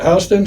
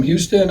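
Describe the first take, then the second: First: "Houston" said HOW-ston, rhyming its start with "cow"; HOW-ston pronunciation. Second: "Houston" with a YOO vowel, HYOO-stun; HYOO-ston pronunciation. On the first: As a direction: pronounce "Houston" with an OW in the first syllable. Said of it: "Some people with that last name pronounce it". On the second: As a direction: say "Houston" as HYOO-ston, first syllable like "hue". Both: Shown as a demonstration.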